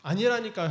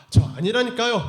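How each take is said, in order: First: Final denial. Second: Louder, higher insistent denial. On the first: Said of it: "하고 마지막으로". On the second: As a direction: shout it's not me, cornered. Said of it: "하니까". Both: Acted.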